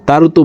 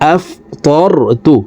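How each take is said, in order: First: The t sound is light and thin. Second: The t sound is heavy and thick. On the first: The speaker calls it wrong. "তারতু বলা যাবে না। তারতু বললে অর্থের পরিবর্তন হয়ে যাবে।" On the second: The speaker calls it right. "তকে মোটা করে উচ্চারণ করতে হবে"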